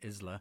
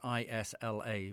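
First: It does not sound like 'island'. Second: It sounds like the start of 'island'. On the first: The speaker calls it wrong. "rather than Isla" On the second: The speaker calls it right. "I assume it's Isla because it's Isla"

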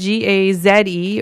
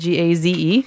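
First: The Z is said the Canadian way, zed. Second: The Z is said the American way, zee.

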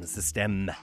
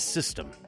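First: It is said with a French pronunciation. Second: It is said with an English pronunciation.

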